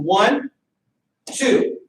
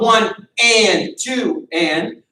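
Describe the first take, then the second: First: Right way, one then two flowing; smooth one two. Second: Wrong way, broken into separate beats; choppy one and two. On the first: Coach showing students the right way, smooth counting. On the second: Coach showing students the wrong way, choppy counting. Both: Shown as a demonstration. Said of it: "When we're practicing slow".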